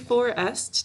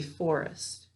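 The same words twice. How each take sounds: First: Each syllable is said fully and carefully. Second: The word is said naturally with a reduced syllable. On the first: This is how it is said for spelling. "We say forest to spell it" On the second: This is how it is said in everyday talk. "When we're talking, we say forest"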